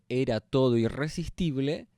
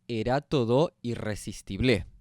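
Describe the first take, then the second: First: The syllables carry their usual stress. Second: The stress falls on unusual syllables.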